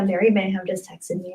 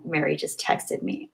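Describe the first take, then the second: First: Said in the usual way. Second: Breathless hushed whisper; excited whisper. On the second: Real, not acted. Streamer whispering excitedly to her chat. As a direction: whisper it like a thrilling secret.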